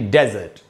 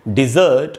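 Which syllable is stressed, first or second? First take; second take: first; second. First: The stress is on the first syllable. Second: The stress is on the second syllable. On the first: It names a dry sandy region. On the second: It means to abandon or leave.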